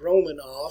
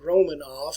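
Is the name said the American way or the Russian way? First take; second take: American; American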